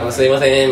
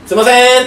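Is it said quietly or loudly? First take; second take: quietly; loudly. First: It is said in a small, quiet voice. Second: It is said in a big, loud voice.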